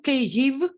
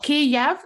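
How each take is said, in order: First: The name is given its Ukrainian pronunciation. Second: The name is given its Russian pronunciation. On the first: The speaker calls it right. "it's Ukrainian way, and it's only right way" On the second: The speaker calls it wrong. "it's Russian"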